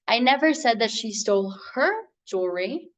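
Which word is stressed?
her. The word "her" carries the stress. "but she did steal the other lady's"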